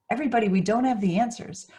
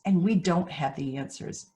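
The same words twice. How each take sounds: First: Higher, louder and faster, leaning on "have" with a rise; emphatic, stress on have. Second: Said in the usual way. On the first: Real, not acted. Speaker pressing the point on worried parents, emphatic. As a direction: call it out to the whole room.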